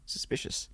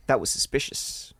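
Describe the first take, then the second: First: Breathy whisper, barely audible; whispered echo. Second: Hushed. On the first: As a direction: whisper it back ominously. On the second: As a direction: say it quietly, like a secret. First take before whispered echo. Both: A narrator's reading.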